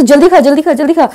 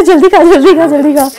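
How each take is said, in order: First: Hurried, bossy imitation of the shop guy, higher and louder; mock pushy shopkeeper. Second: Mock shopkeeper's rush, broken by laughter; laughing imitation. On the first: Mimicking the restaurant man rushing her to eat, hurried bossy mock. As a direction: mimic someone rushing you to finish eating. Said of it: "ऐसा मतलब जिस expression से बोला ना". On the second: Retelling the rushing shop guy to family, laughing through it. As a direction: repeat the bossy order while cracking up. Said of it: "ऐसा करो".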